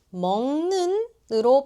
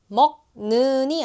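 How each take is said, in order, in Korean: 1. 첫 음절은 비음으로 끝나요. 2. 첫 음절은 파열음으로 끝나요. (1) "먹는으로 발음돼요" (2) "먹는이 아니라"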